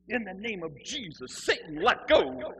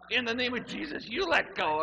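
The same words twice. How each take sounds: First: Loud, drawn-out mock exorcism command; zealous exorcist. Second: Higher, loud strained plea; mock choked retort. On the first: Zealot shaking him by the throat, loud exorcising command. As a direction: build to a big slow let go. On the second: Man grabbed by the throat answers, high panicked command. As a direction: throw the exorcism back in comic panic.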